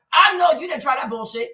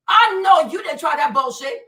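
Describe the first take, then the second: First: Said in the usual way. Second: "I know you didn't try that bullshit" shouted louder the second time; real outrage boiling over on the repeat. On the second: Real, not acted. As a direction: raise it and punch the repeat.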